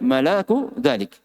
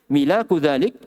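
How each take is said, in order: First: The first vowel is a. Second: The first vowel is i. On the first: "dan di fath" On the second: "Di kasra mimnya"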